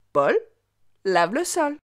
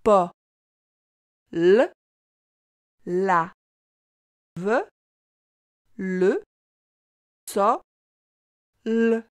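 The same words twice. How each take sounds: First: Said in the usual way. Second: "Pa, l, la, ve, le, so, l" in separate sounds with long pauses; sounded out slowly. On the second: Shown as a demonstration. Teacher reading a sentence with the child, sound by sound. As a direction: decode piece by piece, holding each "l" as a sound. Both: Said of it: "Essaie de lire cette phrase avec moi".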